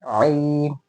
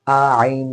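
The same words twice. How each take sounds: First: Long आइन starting right in mid-throat; correct direct onset. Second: आइन broken into open आ, then throat sound; wrong split onset. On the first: Teacher modelling it correctly, आइन straight from mid-throat. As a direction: begin आइन on the throat squeeze itself. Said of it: "हलक़े के बीच के हिस्से से ही शुरू करना है". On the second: Teacher rejecting this version, आइन with an extra vowel. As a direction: lead into आइन with an unwanted आ. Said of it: "आइन नहीं". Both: Shown as a demonstration.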